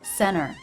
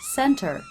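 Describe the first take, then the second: First: The T after the N is dropped. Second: The T after the N is clearly pronounced.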